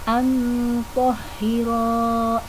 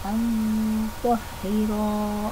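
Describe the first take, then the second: First: The vowel after the r is long. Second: The vowel after the r is short. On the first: The speaker calls it right. "Baca panjang dua harokat" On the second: The speaker calls it wrong. "Ro-nya dibaca pendek karena berat ya"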